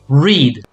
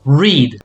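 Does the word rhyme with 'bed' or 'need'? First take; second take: need; need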